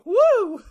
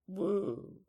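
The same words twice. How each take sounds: First: It is said with enthusiasm and energy. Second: It is said flatly, without feeling.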